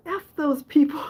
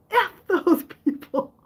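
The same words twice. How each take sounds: First: Louder quote through a laugh; half-laugh the defiant line; mom's defiant line retold through a laugh. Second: High, loud laughing mom impression; mom's defiant line acted high through laughter. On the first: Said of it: "she said". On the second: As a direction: crack up while doing mom. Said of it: "She said".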